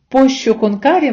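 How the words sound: The double L sounds like sh, curry like English. "Відповідь «пощо конкарі»"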